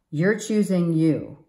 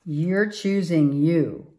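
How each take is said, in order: Both takes have the same delivery.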